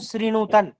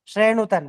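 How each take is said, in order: First: The first vowel sounds like 'ee'. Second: The first vowel sounds like 'ay'. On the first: This is the everyday form. "लोक में क्या बोला जाता है इसको?" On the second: This is the Vedic recitation form. "वेद में"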